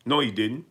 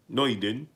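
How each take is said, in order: Both takes have the same delivery.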